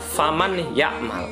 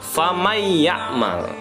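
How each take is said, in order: First: The n sound is clearly heard before the y. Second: The n merges into the following y sound. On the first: The speaker calls it wrong. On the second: The speaker calls it right. "nun matinya tidak lagi dibaca, melainkan langsung masuk ke huruf idghamnya"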